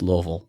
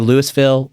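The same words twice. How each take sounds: First: The word is mumbled, as if with water in the mouth. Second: Each syllable of the word is said clearly. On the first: This is how locals say it. The speaker calls it right. "pretend like you got water in your mouth" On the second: This is how outsiders say it. The speaker calls it wrong. "People say Louisville"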